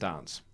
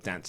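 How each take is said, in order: First: The word is said in a British accent. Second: The word is said in an American accent.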